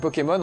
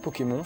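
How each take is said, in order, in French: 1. Le mot se prononce à l'anglaise. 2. Le mot se prononce à la française. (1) "En anglais c'est Pokémon" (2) "en français c'est Pokémon"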